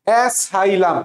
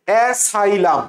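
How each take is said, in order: First: The second consonant is an s sound. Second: The same.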